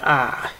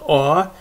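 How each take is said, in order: First: The vowel is an open 'ah' sound. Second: The vowel is a rounded 'aw' sound. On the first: "but is usually ah"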